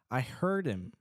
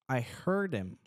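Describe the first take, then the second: The two takes are said the same way.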